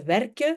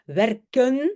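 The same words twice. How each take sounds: First: The word ends without the N sound. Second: The word ends with an audible N sound. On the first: "le N des verbes n'est pas prononcé" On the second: "au lieu de dire"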